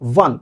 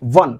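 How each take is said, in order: First: The word begins with a w sound. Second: The same.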